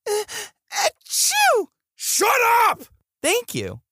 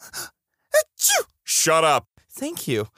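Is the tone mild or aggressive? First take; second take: aggressive; mild. First: It is said in an aggressive tone. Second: It is said in a mild, plain tone.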